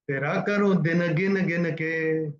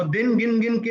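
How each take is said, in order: First: Slow singing with "दिन गिन गिन के" as "dina gina gina ke"; sung, drawn-out song line on the beat; sung, syllables sounded out. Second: "दिन गिन गिन के" with bare final n; clipped word endings. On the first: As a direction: sing it, sounding a vowel after each final n. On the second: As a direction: say "दिन गिन गिन के" as in speech, no vowel after n. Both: Shown as a demonstration. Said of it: "ऐसे नहीं बोलते".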